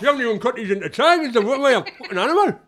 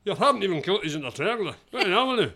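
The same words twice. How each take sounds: First: Loud, fast, higher northern English complaint; hammed-up northern husband, indignant; northern accent. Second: Put-on fast, light Scottish accent; half-hearted Scottish husband complaint. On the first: Husband texting his wife about the sandwiches, loud northern accent. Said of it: "I forgot that up north". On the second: Accent on request from a co-host, fast light Scottish accent.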